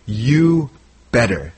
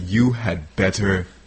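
First: The word 'had' is left out entirely. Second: The word 'had' is said in full. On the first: "We get rid of the had" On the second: "it actually sounds stronger when you say that"

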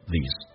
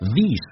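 First: The vowel is short and reduced. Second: The vowel is long and full.

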